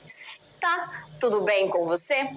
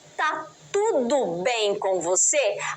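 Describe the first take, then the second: First: The first word is said in full, keeping every syllable. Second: The first word is shortened, dropping its first syllable. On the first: It is the more formal way of asking. "Ao invés de dizer" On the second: It is a casual, informal greeting. "eu vou apagar uma parte desta palavra"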